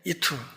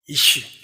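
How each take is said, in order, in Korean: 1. 이 단어는 t 소리로 끝납니다. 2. 이 단어는 sh 소리로 끝납니다. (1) "쉬 소리를 트로 발음하니까 이투 이렇게 했을 거예요" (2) "사람이 입을 열어보여 이쉬죠"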